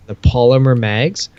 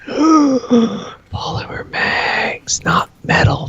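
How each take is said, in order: First: Said in the usual way. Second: Gasp, then whisper "Polymer mags" slow, very high and hushed; awed gasping whisper. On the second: Real, not acted. Showing the new polymer mags to viewers, awed gasping whisper. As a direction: breathe "Polymer" out in a long reverent whisper.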